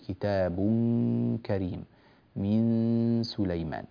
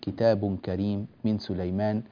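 First: The n sounds carry a held nasal hum. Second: The n sounds have no held nasal hum. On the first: The speaker calls it right. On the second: The speaker calls it wrong.

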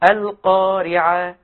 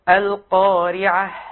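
First: The final h sound is cut off and missing. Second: The final h sound is heard as breathy. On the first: The speaker calls it wrong. "أين الهاء؟ اختفت" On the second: The speaker calls it right. "الصواب إيه؟ القارعة. مهموس"

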